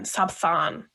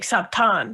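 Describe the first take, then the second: First: The middle consonant is a th sound. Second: The middle consonant is a plain t sound. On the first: "instead of Sabthan" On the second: "I also say Sabtan instead of Sabthan"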